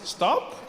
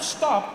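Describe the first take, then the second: First: It is said softly, like a suggestion. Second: It is said firmly, like a command.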